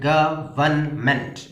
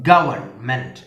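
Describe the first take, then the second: First: government slowly split into three parts; syllable by syllable. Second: Said in the usual way. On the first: Shown as a demonstration. Teacher counting syllables, government slowly broken in three. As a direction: separate each syllable of government. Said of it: "മൂന്ന് syllable ആണ്". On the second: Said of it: "എത്ര syllable ഉണ്ട്?".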